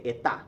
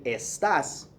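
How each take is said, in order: First: "Está" with no s, Caribbean style; dropped s. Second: "Estás" with the final s sounded; full s. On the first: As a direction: say "Está" and drop the s. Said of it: "they say". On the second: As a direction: say "Estás" with a clear s at the end. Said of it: "instead of saying". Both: Shown as a demonstration.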